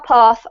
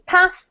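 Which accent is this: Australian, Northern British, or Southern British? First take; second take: Southern British; Northern British. First: It is said in a southern British accent. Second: It is said in a northern British accent. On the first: "These are pronounced the same by me" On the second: "from the north of the U K"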